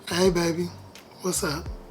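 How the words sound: It is said smoothly and softly.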